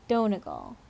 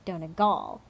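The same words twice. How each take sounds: First: The stress is on the first syllable. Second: The stress is on a later syllable. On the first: The speaker calls it right. "I imagine it's at the beginning" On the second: The speaker calls it wrong. "And not like"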